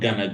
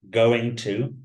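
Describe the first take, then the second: First: The words are blended into one short reduced form. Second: Both words are said fully and separately.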